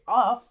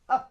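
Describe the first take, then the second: First: The vowel is a full, clear vowel. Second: The vowel is a short, weak schwa. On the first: The speaker calls it wrong. "We don't say of" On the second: The speaker calls it right. "we say uh"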